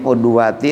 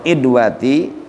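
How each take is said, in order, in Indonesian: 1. Kata ini dimulai dengan vokal u. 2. Kata ini dimulai dengan vokal i. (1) "dengan dibaca domah huruf ainnya" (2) "dan kasroh kasrohnya"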